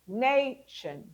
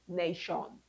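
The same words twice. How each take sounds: First: The last syllable is a reduced 'shun'. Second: The last syllable is a full 'shawn'. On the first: The speaker calls it right. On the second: The speaker calls it wrong.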